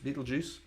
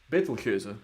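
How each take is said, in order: First: The name is said with an English pronunciation. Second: The name is said with a Dutch pronunciation. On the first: "I don't know how you say it in English actually" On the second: "in het Nederlands. Dutch"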